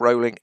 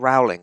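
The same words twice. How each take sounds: First: The first syllable rhymes with 'roll'. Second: The first syllable rhymes with 'howl'. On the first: The speaker calls it right. "She calls herself Rowling" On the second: The speaker calls it wrong. "The number of times I hear Rowling"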